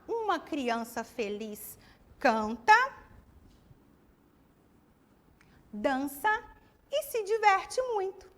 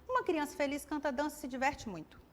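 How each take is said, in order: First: It is said with pauses between the items. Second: It is said quickly without pauses between items. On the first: The meaning is easy to follow. The speaker calls it right. "Ficou mais fácil para entender, não é?" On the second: The meaning is hard to follow. The speaker calls it wrong. "Ficou rápido, né? Precisamos de uma pausa"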